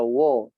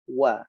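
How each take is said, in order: First: The vowel is rounded, like 'o'. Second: The vowel is thin and open, like 'a'. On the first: The speaker calls it wrong. "tidak dibaca wo" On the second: The speaker calls it right. "jadi tipis, tapi wa"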